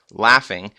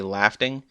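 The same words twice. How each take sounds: First: Said in the usual way. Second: "laughing" said as "laf-ting", with a stray t; mispronunciation repeated. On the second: Shown as a demonstration. Reviewer questioning their own slip, "laughing" mispronounced as "laf-ting". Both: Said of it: "Did I just say laughing?".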